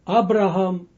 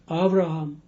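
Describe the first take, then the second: First: The consonant after the first vowel is b. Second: The consonant after the first vowel is v. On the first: This is the form used in the Greek translation. "That's why they say uh, Abraham" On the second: This is the original Hebrew form. "and not Avraham"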